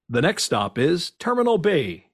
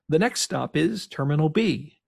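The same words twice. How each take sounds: First: It is spoken in a put-on announcer voice. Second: It is spoken in the speaker's usual voice. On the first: "I switch off this voice and go to" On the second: "I do not do it in this voice"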